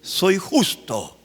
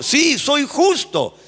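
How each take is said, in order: First: Soy justo said very slowly and firmly; measured and firm: Soy justo; slow declaration. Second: A bold, slow proclamation of Sí, soy justo; bold declaration. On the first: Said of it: "la humildad es decir". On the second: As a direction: proclaim it boldly. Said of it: "qué pedante para hablar". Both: Shown as a demonstration.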